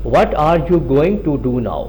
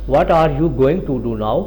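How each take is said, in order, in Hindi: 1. 'going to' दो शब्दों के रूप में पूरा बोला जाता है। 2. 'going to' दो शब्दों के रूप में पूरा बोला जाता है।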